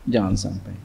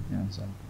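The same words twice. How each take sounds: First: Said in the usual way. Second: "Jangan sampai" trailing off almost inaudibly; fading to near silence. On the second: Shown as a demonstration. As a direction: let it die away to a breath. ("Jangan sampai" diucapkan sangat pelan, memudar)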